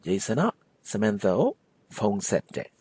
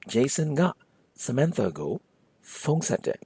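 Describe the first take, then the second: First: The particles are reduced to ah and o. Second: The particles are said fully as ga and go. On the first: "In fast, normal, everyday speak, ... may further morph into ah and o" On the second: "the proper way to say Jason called Samantha in Burmese"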